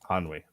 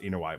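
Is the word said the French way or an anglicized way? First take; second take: French; anglicized. First: The word is said with a French-style pronunciation. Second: The word is said with an anglicized pronunciation. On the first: The speaker calls it right. "That's ennui" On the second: The speaker calls it wrong. "I've heard it pronounced Inouye"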